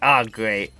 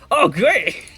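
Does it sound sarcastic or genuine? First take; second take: sarcastic; genuine. First: It sounds sarcastic and unimpressed. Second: It sounds genuinely pleased and happy.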